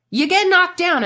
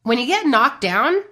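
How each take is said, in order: First: "knocked" hit high and loud with a falling finish; emphatic repeat. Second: Said in the usual way. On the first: Shown as a demonstration. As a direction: say "you get knocked down" again with "knocked" punched hard and high.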